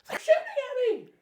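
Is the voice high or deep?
high. It is screamed in a high voice.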